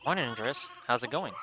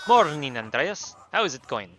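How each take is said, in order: First: It is said in his normal voice. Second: It is said in a weird put-on accent.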